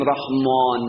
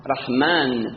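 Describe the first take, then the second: First: رحمان with a dark, rounded aa like Persian; wrongly rounded long A. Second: رحمان with a light, fronted Arabic aa; open long A. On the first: Teacher showing what not to say, rounded رحمان. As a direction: round the last vowel of رحمان toward "aw". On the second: Teacher giving the correct form, open-vowelled رحمان. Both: Shown as a demonstration. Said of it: "نمیگیم رحمان".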